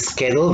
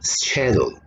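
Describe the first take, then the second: First: It is said with an American accent. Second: It is said with a British accent.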